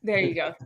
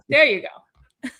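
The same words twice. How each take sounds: First: Said in the usual way. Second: Laughing. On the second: Real, not acted. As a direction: laugh it out slowly.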